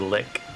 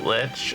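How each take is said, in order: First: The word ends with a k sound. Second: The word ends with a ch sound. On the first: "some say lick" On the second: "some people pronounce it lich"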